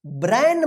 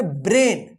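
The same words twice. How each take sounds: First: "ब्रेन" misread as "ब्रैन", with open ai; wrong "ब्रेन". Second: "ब्रेन" with a long "e" vowel; correct "ब्रेन". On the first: ("ब्रेन" को ग़लत ढंग से "ब्रैन" पढ़ना) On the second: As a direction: say "ब्रेन" to rhyme with English "rain". ("ब्रेन" में लंबा ए उच्चारण) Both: Shown as a demonstration. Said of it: "ब्रेन मत पढ़िएगा".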